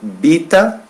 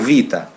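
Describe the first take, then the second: First: The word begins with a B sound. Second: The word begins with a V sound. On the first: This form is used at the end of a word. "à la fin de chaque mot, on prononce B" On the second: This form is used everywhere else. "Sinon, c'est vita"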